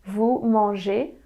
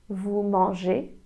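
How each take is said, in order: Both takes have the same delivery.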